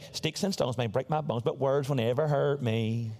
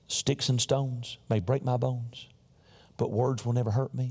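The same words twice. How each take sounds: First: It is said in a childish, taunting playground voice. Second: It is said in a plain, ordinary speaking voice. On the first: "On the playground, we would say" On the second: "we didn't say it like that"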